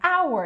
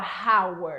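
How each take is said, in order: First: The word begins directly with a vowel sound. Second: The word begins with an audible h sound. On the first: The speaker calls it right. "é como se não tivesse esse H" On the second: The speaker calls it wrong. "Você não fala hour, não"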